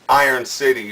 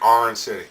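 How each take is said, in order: First: It is said in a standard accent. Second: It is said in a Pittsburgh accent.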